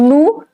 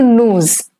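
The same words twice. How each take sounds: First: The final s is silent. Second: The final s is pronounced as z. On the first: "the pronunciation changes from nous" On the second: "to nous. It's known as liaison"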